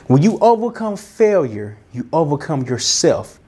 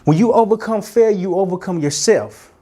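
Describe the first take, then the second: First: It is said slowly. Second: It is said fast.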